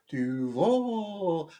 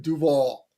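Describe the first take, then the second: First: "Duval" murmured softer in a hint of the coach's creepy voice; creepy Duval echo. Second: "Duval" said doo-VAHL, stress on the last syllable; proper Duval. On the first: Host replays the coach's creepy Duval, a soft mock. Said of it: "I just have it in my head now". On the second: Shown as a demonstration. Host shows listeners the proper local way, plainly said. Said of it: "know how to properly say the word".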